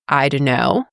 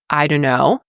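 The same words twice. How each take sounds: First: The words are reduced and run together. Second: The same.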